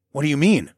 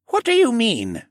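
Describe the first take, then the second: First: Said in the usual way. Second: Put-on high questioning older man; raised, curious old koala. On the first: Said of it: "I asked". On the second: A narrator's reading. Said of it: "he questioned".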